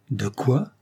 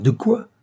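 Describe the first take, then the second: First: Restrained angry question, rising at the end; a first touch of indignant anger; angry challenge. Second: Much higher, louder indignant question; angry challenge. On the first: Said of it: "fit-il, rouge de colère". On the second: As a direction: flare up in outraged disbelief. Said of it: "rouge de colère". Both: Acted.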